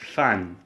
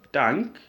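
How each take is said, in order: First: The word sounds like 'than'. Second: The word sounds like 'tank'. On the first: "or you can pronounce this one as than" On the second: "this one is pronounced as tank"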